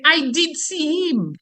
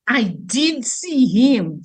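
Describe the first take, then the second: First: "I did see him" in a Creole voice, slow; Creole phrasing. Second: "I did see him" very slow with stress on "him"; slow demo. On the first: Teacher demonstrating Creole speech, slow Creole voice. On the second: Teacher repeating the example slowly for students. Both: Shown as a demonstration. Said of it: "Some would say".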